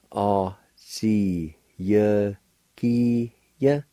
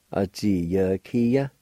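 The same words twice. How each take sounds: First: "A, ji, ye, ki, ye" with small gaps; deliberate breakdown of "A, ji, ye, ki, ye"; syllable by syllable. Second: Said in the usual way. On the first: Shown as a demonstration. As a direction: draw out each syllable of "A, ji, ye, ki, ye". Slower take before the blended word.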